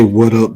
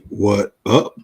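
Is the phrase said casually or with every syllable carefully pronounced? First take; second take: casually; carefully. First: The words run together casually and naturally. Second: Every syllable is pronounced separately and carefully. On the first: The speaker calls it right. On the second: The speaker calls it wrong.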